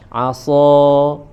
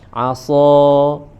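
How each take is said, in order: First: The s sound is heavy and thick. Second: The same.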